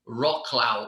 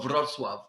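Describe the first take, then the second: First: It is said with English-style pronunciation. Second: It is said with Polish-style pronunciation.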